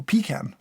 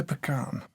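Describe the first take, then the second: First: "pecan" said PEE-can, stress on the first syllable; alternative pronunciation. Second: "Pecan" said puh-KAHN, stress on the second syllable; variant pronunciation. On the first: Taster offering the other reading, "pecan" as PEE-can. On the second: Taster reading out the flavor, "Pecan" as puh-KAHN. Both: Shown as a demonstration. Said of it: "Or pecan".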